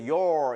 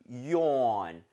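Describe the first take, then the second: First: The word is said with an R sound. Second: The word is said without an R sound. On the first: The speaker calls it wrong. "your 이렇게 하는 것이 아니라" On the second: The speaker calls it right. "R 사운드가 없어요. 그냥 yawn"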